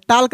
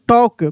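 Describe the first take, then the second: First: An l sound is pronounced before the k. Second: No l sound is pronounced before the k. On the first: The speaker calls it wrong. "टाल्क नहीं" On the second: The speaker calls it right. "इसको हम लोग टॉक पढ़ेंगे"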